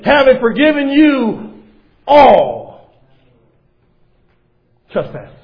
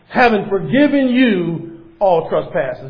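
First: The phrase is spoken slowly. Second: The phrase is spoken quickly.

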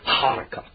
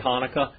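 First: It starts with a deep guttural throat sound. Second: It starts with a plain soft h. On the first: "they say Hanukkah. Way deep, guttural sound" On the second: "we say Hanukkah"

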